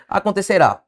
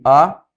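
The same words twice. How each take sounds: First: Said in the usual way. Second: "Acontecerá" split into separate syllables with clear pauses. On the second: Shown as a demonstration. Teacher splitting "Acontecerá" for students, syllable by syllable. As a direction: say "Acontecerá" in pieces, a-con-te-ce-rá. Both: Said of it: "Separe comigo".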